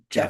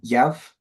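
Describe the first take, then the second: First: The name begins with a J sound. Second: The name begins with a Y sound.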